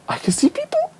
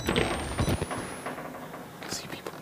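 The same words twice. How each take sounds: First: Much higher, panicky squeak. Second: Hushed, voiceless whisper. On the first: Player spotting enemies, high frightened squeak. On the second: Player hiding from people, whispering. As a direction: whisper so they can't hear. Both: Pretend. Repeats line in different ways.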